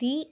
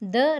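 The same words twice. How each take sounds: First: The vowel is a long 'ee' sound. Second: The vowel is a short, weak 'uh' sound. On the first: The next word starts with a vowel sound. "தி only ஓன்றது vowel sound" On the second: The next word starts with a consonant sound. "ரைட்ன்றது கான்சனன்ஸோட sound"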